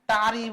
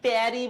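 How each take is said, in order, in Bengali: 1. t-এর পরের স্বরটা father-এর মতো শোনায়। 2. t-এর পরের স্বরটা cat-এর মতো শোনায়। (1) "আবার অনেকে এটাকে টারি বলবে" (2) "অনেকে এটাকে ট্যারি বলে"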